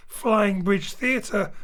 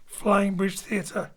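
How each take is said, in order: Both takes have the same delivery.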